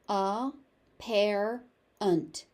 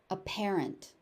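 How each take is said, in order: First: Each syllable is exaggerated and separated. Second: It is said at a natural, connected pace. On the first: "overpronounce it" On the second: "the standard normal pronunciation of the word again"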